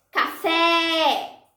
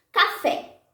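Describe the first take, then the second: First: Café with a long, held final FÉ; drawn-out stress on the fé of Café; called-out stressed syllable. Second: Said in the usual way. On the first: Shown as a demonstration. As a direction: call out Café, stretching the last syllable. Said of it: "Fé é a sílaba tônica". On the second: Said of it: "Vamos tentar com outras palavras".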